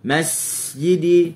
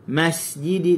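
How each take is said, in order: First: The s sound is held and stretched out. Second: The s sound is released with natural length. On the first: The speaker calls it wrong. "tambah masjidi, tu kita tunggu" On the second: The speaker calls it right. "dan sin kita lepas"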